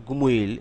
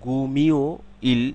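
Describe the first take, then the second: First: গুমোইল said as one word with ও, slightly slow; the right way Koreans say গুমোইল; correct Korean pronunciation. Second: গুমিও ইল split into two parts, with an ই sound; the incorrect way: গুমিও, then ইল; wrong pronunciation demo. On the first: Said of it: "গুমোইল এরকম বলে". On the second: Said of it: "এরকম ওরা বলে না". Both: Shown as a demonstration.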